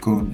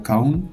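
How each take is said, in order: First: The vowel is a plain, steady 'o' sound. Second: The vowel glides like 'ow' in the word. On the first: The speaker calls it right. "c'est kon" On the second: The speaker calls it wrong. "C'est pas kaun"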